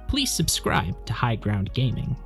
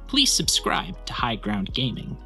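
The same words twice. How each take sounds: First: The voice sounds richer, warmer and fuller. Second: The voice sounds thinner and less full. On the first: The speaker calls it right. "Podcast is much richer, warmer, fuller" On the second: The speaker calls it wrong. "I'll run it once for chat"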